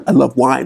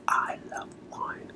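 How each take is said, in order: First: Said in the usual way. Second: Breathy whispered confession. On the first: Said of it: "I told you guys". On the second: Shown as a demonstration. Coach whispering a confession to the audience, whispered. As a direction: whisper it like a secret.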